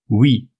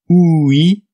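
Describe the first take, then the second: First: The two vowel sounds are blended quickly. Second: The two vowel sounds are said separately.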